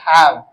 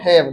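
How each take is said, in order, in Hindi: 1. स्वर बोलते समय मुंह चौड़ा खुला होता है। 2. स्वर बोलते समय मुंह मुश्किल से खुला होता है। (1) "दिस इज हैव। मुंह खुलना चाहिए।" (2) "sir this is not हैव"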